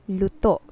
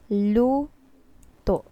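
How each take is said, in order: First: The word is said quickly and evenly. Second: The first syllable is stressed and drawn out. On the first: It means already cooked. "if we will pronounce it in a fast manner" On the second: It means to cook. "we put some emphasis in this first syllable"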